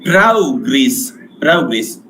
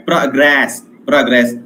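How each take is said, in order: First: Progress stressed on the first syllable, PRO-gress; noun stress. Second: Progress stressed on the second syllable, pro-GRESS; verb stress. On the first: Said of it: "as a noun, I have to say". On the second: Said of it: "as a verb". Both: Shown as a demonstration.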